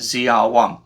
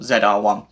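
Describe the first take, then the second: First: The letter Z is said as 'zee'. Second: The letter Z is said as 'zed'.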